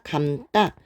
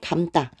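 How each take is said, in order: First: The second syllable starts with a tense tt sound. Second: The second syllable starts with a plain d sound. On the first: The speaker calls it right. "감다 요렇게 발음을 하게 되죠" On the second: The speaker calls it wrong. "감다가 아니라"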